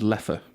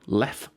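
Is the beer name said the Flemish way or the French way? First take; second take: Flemish; French. First: It is said with the Flemish pronunciation. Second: It is said with the French pronunciation. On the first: This is how Flemish speakers say it. "The Flemish is" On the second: This is how French speakers say it. "So French speaking"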